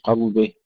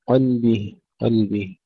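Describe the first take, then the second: First: قلبه with a thick, dark ل; heavy lam. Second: قلبه with a thin, clear ل; light lam. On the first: Teacher showing what to avoid, heavy lam in قلبه. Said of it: "لا نقول قلبه". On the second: Teacher repeating the correct take, light lam in قلبه. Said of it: "نرقق اللام". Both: Shown as a demonstration.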